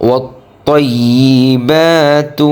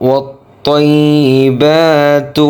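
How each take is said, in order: Both takes have the same delivery.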